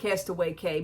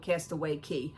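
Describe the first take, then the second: First: The last word sounds like the letter K. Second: The last word sounds like the word key. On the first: The speaker calls it right. "I call it Castaway K" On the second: The speaker calls it wrong. "Many people call it Castaway Key"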